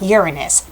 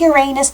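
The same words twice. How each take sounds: First: It sounds like it contains the word urine. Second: It sounds like it contains the word anus. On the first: The speaker calls it wrong. "you're saying pee" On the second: The speaker calls it right. "I'd rather say the butt version because it sounds better"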